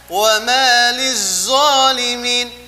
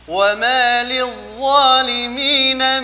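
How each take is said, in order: First: The consonant is a hissing 'z' sound. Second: The consonant is a soft 'dh' sound. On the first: The speaker calls it wrong. "jangan dibaca" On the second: The speaker calls it right. "huruf wa pada kalimat"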